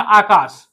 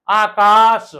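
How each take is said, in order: First: Said in the usual way. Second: आकाश with both आ vowels stretched; long aa. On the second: Shown as a demonstration. Teacher showing where आ is spoken, drawn-out आकाश. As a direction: draw out आकाश syllable by syllable. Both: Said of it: "आक बोला जा रहा".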